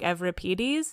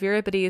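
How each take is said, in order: First: The name is pronounced the modern Greek way. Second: The name is pronounced the Canadian English way. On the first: "modern Greek coming out because they call him like Euripides" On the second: "in a very like Canadian English way of Euripides"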